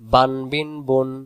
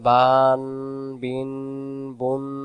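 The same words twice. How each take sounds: First: The vowels are kept short, not drawn out. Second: The vowels are drawn out long. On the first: The speaker calls it right. "যেন আমার কোনোভাবে হারকাত যেন টান না হয়" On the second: The speaker calls it wrong. "তখন উচ্চারণ ভুল হয়ে যাবে।"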